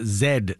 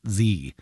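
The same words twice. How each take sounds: First: Z said as "zed"; Canadian pronunciation. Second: Z said as "zee"; American pronunciation. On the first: Host demonstrating the Canadian letter, Z pronounced "zed". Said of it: "It's pronounced Z, not Z". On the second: Host showing what Canadians avoid, Z pronounced "zee". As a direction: say Z to rhyme with "see". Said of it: "not Z". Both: Shown as a demonstration.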